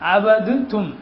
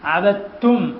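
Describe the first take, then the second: First: The d sound is heard before the t. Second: The d is dropped and only t sounds. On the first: "എന്നാണ്" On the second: "അവിടെ ദാല് നമ്മൾ കേൾപ്പിക്കുന്നില്ല"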